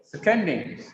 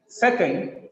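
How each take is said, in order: First: "seconding" as se-COND-ing; weak se, strong COND in "seconding"; stress on second syllable. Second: SECond, strong Sec; stress on first syllable. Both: Shown as a demonstration. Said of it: "change in the stress pattern".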